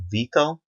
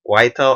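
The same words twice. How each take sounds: First: Unsure try at the name Vito, VEE-toh; unsure pronunciation. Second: Second, questioning try at the name, Vital with an EYE vowel; alternative pronunciation. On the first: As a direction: say Vito with a VEE start, drawn out. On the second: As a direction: say Vital with a long I in the first syllable. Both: Real, not acted. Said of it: "I don't know how to pronounce".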